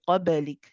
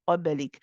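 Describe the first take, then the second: First: The b is released with a short bounce. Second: The same.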